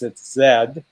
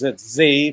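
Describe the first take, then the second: First: The letter is said the British way, zed. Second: The letter is said the American way, zee.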